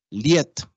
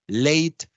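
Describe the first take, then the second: First: LIET with an 'ie' glide; Creole diphthong. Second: LATE with English 'ey' glide; English-style LATE, vowel gliding to 'i'; English diphthong. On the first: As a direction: say LIET as 'lyet'. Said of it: "todas esas en criollo sistemáticamente". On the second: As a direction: say LATE as 'leyt'. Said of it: "cualquier diptongo A en inglés". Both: Shown as a demonstration.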